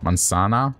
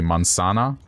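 The two takes are said the same way.

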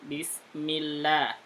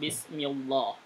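First: The 'lah' is pronounced thin and light. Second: The 'lah' is pronounced thick and heavy. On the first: The speaker calls it right. "Bunyinya begitu" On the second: The speaker calls it wrong. "Bukan Bismillah"

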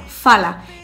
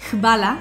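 First: The word begins with a plain f sound. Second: The word begins with an hv sound. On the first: This is how people on the Zadar coast say it. "en Zadar se pronunciaba de una manera más sencilla" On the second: This is the general way to say thanks. "con la palabra gracias, hvala o algo así"

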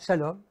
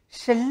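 First: It is said in a plain polite tone. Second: It is said in an alluring, seductive voice.

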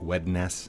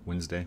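First: Every letter is sounded out, as spelled. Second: It is said the usual reduced way, 'Wenzday'. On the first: "do you still like sound it out like Wednesday" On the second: "instead of Wednesday"

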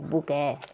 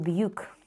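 First: It is two syllables, ending in an 'eh' sound. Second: It is one syllable, starting with a 'byu' sound. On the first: This is how the makers might pronounce it. "вимовляти це як «буке»" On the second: This is how English spelling rules would read it. "За правилами англійської мови я б прочитала це «б'юк»"

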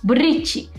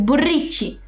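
No difference in how they are said.

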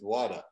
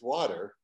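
First: It is said with a Boston accent. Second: It is said without a Boston accent.

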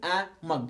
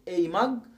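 First: The article is said as a short 'uh'. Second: The article is said as a full 'ay'. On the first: "واقول a mug، الاثنين صح" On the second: "ممكن أقولها أي باسمها"

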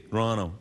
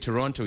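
First: It is pronounced the way locals say it. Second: It is pronounced the way outsiders say it. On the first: The speaker calls it right. "if you're from Toronto, ... You say Toronto" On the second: The speaker calls it wrong. "you don't say Toronto"

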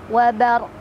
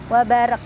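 First: The final q ends with a clear echoing bounce. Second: The final q stops flat without a bounce. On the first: The speaker calls it right. "Qafnya tetap ada pantulan" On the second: The speaker calls it wrong. "Jadi jangan seperti ini"

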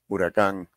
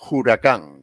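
First: The word starts with a plain vowel sound. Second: The word starts with a harsh J sound. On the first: This is the modern pronunciation. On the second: This is the original Taíno pronunciation.

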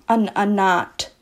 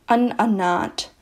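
No difference in how they are said.

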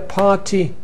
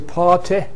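First: The final vowel is a tense happy vowel. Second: The final vowel is a short lax kit vowel. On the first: The speaker sounds like most people today. "Most people have tensed here" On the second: The speaker sounds very conservative and upper class. "Very conservative upper class RP will say party"

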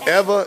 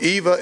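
First: The name is pronounced the Spanish way. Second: The name is pronounced the English way. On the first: "Eva in Spanish" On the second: "Eva in English"

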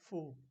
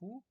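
First: It begins with a soft f-like sound. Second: It begins with a plain h sound. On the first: The speaker calls it right. "but a little bit of F sound" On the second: The speaker calls it wrong. "is not pronounced like who"

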